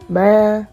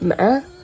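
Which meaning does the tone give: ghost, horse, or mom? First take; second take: ghost; horse. First: Said with the tone that means ghost. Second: Said with the tone that means horse. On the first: The word means ghost. "can be a ghost" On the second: The word means horse. "ma means horse"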